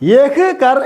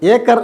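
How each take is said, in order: First: The phrase is said in full, as written. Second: The phrase is reduced, starting with an e sound. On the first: "യഹ് കർ എന്ന് എഴുതും" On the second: "ഏക്കർ എന്ന് വായിക്കും"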